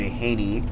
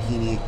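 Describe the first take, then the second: First: The first vowel sounds like 'hay'. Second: The first vowel sounds like 'he'. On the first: The speaker calls it right. "Michael J. Haney" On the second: The speaker calls it wrong. "It's not Heaney. That's a mistake in history"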